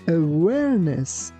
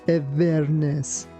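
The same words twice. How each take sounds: First: The w is pronounced with rounded, untouching lips. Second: The w is pronounced like a v. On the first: The speaker calls it right. "Your lips shouldn't touch each other. That's why we say awareness" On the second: The speaker calls it wrong. "We don't say awareness"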